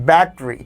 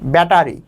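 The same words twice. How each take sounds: First: The first syllable is stressed heavily. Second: The first syllable is stressed only lightly.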